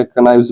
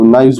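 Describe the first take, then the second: First: कनाइव्स with the K sounded, ka-naives; teacher saying कनाइव्स wrongly with a spoken K at the start; k pronounced. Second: नाइव्स with the K left silent, just naives; teacher saying नाइव्स correctly, starting straight on the N. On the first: Teacher shows students the wrong reading, K sounded. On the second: Teacher corrects for students, K kept silent. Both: Shown as a demonstration. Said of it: "के क्योंकि silent होता है".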